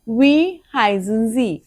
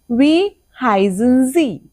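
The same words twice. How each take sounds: First: Slow repeat. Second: Slow, careful model sentence; slow German model phrase. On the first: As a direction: echo it back for them to copy. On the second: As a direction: say it slowly for the class. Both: Shown as a demonstration.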